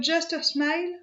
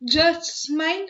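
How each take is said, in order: First: "Just a Smile" run together as one smooth phrase; continuous, no break. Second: "Just Smile" slow, with a break between Just and Smile; break in the middle. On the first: Showing viewers the name that flows, "Just a Smile" said without a break. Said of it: "ça se dit comme ça". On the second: Showing viewers why the name jars, "Just Smile" broken in the middle. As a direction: split "Just Smile" into two weighty words. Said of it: "on est obligé de mettre une rupture". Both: Shown as a demonstration.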